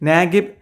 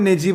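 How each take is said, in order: First: The middle consonant is a hard G sound. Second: The middle consonant is a J sound. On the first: This is the English pronunciation. "ഇനി ഒരു English pronunciation എന്നുള്ള രീതിയിൽ" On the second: This is the Arabic pronunciation. "Arabic പേര് നോക്കുമ്പോൾ നജീബ് എന്നുള്ളതാണ് അതിൻ്റെ ഒരു ഉച്ചാരണം"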